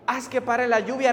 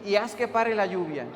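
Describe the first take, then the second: First: Mildly pleading prayer, slightly raised; retold tearful plea. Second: Said in the usual way. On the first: Youth leader begging God to stop the rain, mildly pleading. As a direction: act out an earnest appeal to God. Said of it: "se echó a temblar llorando". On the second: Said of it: "tú solamente tienes que pedir".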